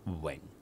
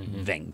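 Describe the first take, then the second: First: The word begins with a W sound. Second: The word begins with a V sound. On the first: The speaker calls it right. "in Cantonese, it's Wing, Wing. It's a low-level tone" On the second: The speaker calls it wrong. "It's not Ving. There is no V sound in all of Cantonese phonetics"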